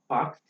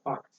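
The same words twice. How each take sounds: First: The word ends with a voiced d sound. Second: The word ends with a voiceless t sound. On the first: "That's what gives rise to packed being pronounced as" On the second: "pronounced as packed. That would be easier"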